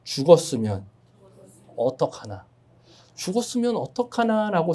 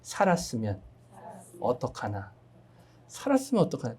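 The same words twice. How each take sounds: First: "죽었으면 어떡하나" said slowly, falling at the end; a preacher's slow worried call-and-response line; worried priest's thought. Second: "살았으면 어떡하나" said softly, falling at the end; a preacher's softer call-and-response line; hopeful Samaritan's thought. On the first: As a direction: model the phrase for the congregation to repeat. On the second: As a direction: model the phrase so the congregation can repeat it. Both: Shown as a demonstration. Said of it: "따라해 보실까요?".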